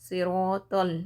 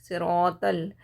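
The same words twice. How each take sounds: No difference in how they are said.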